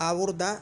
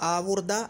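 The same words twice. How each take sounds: Both takes have the same delivery.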